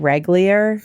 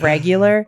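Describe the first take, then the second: First: The word is said with a childlike mispronunciation. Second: The word is said with its standard pronunciation. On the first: This is how a young child says it. The speaker calls it wrong. "Arlo right now will say regular instead" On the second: This is how adults normally say it. The speaker calls it right. "of regular"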